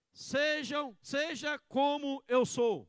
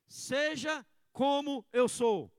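First: Slow, loud, stress on eu; slow emphatic line. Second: Slow and loud, eu drawn out; slow emphatic line. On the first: Pastor modelling the line for the church, slow and emphatic. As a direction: lean hard on eu and drag it. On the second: Pastor leading the church in repeating, emphatic. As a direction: hammer the word eu. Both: Shown as a demonstration. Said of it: "Repita comigo".

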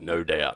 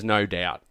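First: Low, gritty tough-guy voice; dismissive arms dealer. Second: Said in the usual way. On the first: Shown as a demonstration. Trying out a character's favourite saying, dismissive arms dealer. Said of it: "this sort of dismissive, like, um, arms dealer". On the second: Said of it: "favourite saying is".

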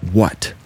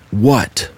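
First: Understated annoyed hiss; mildly irritated, held in; angry hiss. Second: A mildly sharp demand on being woken; understated startled outburst. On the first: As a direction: hiss it lightly through clenched teeth. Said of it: "and hissed out". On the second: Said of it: "startled awake and loudly demanded". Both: A narrator's reading.

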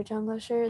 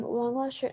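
First: Zhang Lasher said with a ZH sound at the start; corrected name. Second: Wang Lasher said with a W sound at the start; wrong name. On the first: Vlogger to viewers, correcting the teacher's name. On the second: Vlogger to viewers, first saying the teacher's name wrong. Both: Shown as a demonstration. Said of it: "not Wang Lasher".

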